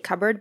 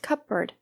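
First: The P sound is silent. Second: The P sound is pronounced. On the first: This is the easy everyday way to say it. "we just say cupboard because it's easier" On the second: This may be the proper way to say it. "Or is it really supposed to be pronounced cupboard?"

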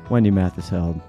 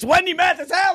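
First: It is said calmly, with the voice dropping. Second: It is said with lively, raised energy. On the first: The speaker calls it wrong. "I feel like I just chilled it out there for a second" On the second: The speaker calls it right. "There it is"

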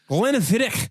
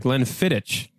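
First: It is said in a Scottish accent. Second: It is said in his plain accent.

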